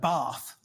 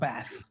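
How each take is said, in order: First: It is said the South Australian, English-sounding way. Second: It is said the way other Australians say it. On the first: "we say things like bath" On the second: "rather than bath"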